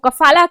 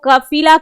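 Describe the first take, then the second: First: The second vowel is a long 'aa' sound. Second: The second vowel is a long 'ee' sound. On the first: "कभी आ की" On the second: "कभी ई की मात्रा लगाई जाती है"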